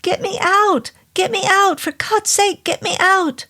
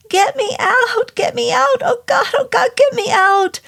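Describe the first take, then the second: First: High, desperate shouting; panicked shout. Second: Gibbering terror. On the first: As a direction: yell for help in panic. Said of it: "then he shouted". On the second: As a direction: beg for rescue in sheer agony. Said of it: "he gibbered". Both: Acted.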